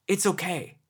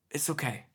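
First: Said in the usual way. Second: Gentle repeat. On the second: Retold or imitated. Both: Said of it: "I tried to be gentle".

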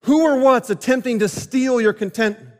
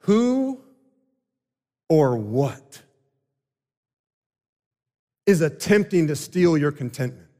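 First: Pressing question. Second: "Who" and "or what" set apart with long pauses; slow, paused question. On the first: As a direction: press the question home on the congregation. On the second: Preacher lets the question sink in, slow and paused. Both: Shown as a demonstration.

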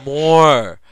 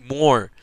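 First: Louder, drawn-out "More"; hammed-up hungry demand, louder than the first "More"; greedy demand. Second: Firm call for more; demanding. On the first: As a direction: insist on more numbing. Asking for more lidocaine. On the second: Retold or imitated. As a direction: ask for more, firmly. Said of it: "I don't wanna feel a goddamn thing".

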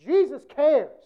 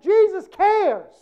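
First: "Jesus cares" repeated a touch less loud; Jesus cares, softer. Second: Slow, loud "Jesus cares" with Jesus stressed. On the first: Preacher repeating to the congregation, a quieter echo. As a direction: echo it back gently. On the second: Preacher to the congregation, a slow loud "Jesus cares". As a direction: lean hard on "Jesus". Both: Shown as a demonstration.

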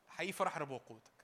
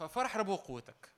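First: Sincere. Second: ففرح proclaimed with a falling push. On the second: Preacher to congregation, ففرح proclaimed with a falling push. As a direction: ring out ففرح as a declaration. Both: Shown as a demonstration.

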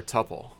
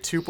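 First: "tuple" rhyming with "supple"; short-u pronunciation. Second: "tuple" said like "too-pull"; long-u pronunciation. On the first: Teasing about the pronunciation debate, "tuple" as tupple. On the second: Teasing about the pronunciation debate, "tuple" as too-pull. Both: Shown as a demonstration. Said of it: "Is it tuple or tuple?".

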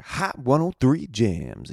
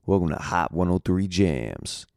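First: High, slow sung-out station ID; radio station jingle. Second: Slow smooth radio host intro. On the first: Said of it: "So they're like". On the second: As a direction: announce it like a radio DJ. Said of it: "one of the places I did in Kansas City". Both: Retold or imitated.

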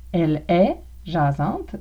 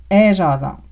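First: Said in the usual way. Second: "elle est" shrunk to a single "è" before "jasante"; louder Québécois "est jasante", one vowel for "elle est"; Québécois contraction. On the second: Shown as a demonstration. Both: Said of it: "Elle est jasante devient".

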